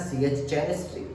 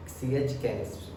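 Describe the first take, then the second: First: सीएच केमिस्ट्री, ch spoken as k; teacher says केमिस्ट्री with a hard k. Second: सीएच stressed, केमिस्ट्री with a hard k, softer and falling; ch as k, soft recap. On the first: Teacher showing class the k sound in केमिस्ट्री. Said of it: "सीएच mostly किसकी आवाज़ देता है". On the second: Teacher softly repeating the k sound for students. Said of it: "के की आवाज़ देता है ना". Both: Shown as a demonstration.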